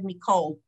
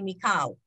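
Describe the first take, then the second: First: The last vowel sounds like oh. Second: The last vowel sounds like ah. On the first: It is the older, originally learned pronunciation. "I learned it as all, and I I would have normally have said Mikol" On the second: It is the pronunciation now being practiced. "but now we're trying to say Mikal"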